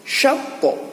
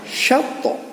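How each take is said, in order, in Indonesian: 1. Konsonan akhir dilepas dengan memantul. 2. Konsonan akhir dilepas dengan memantul.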